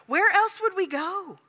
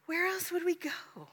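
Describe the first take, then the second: First: Higher, slow, pleading Peter. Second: Whispered, higher, hushed repeat; whispered echo. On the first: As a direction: ask it as a desperate disciple. Peter's answer, voiced. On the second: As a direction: breathe the question again. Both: Acted.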